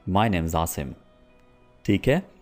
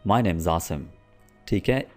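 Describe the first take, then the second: No difference in how they are said.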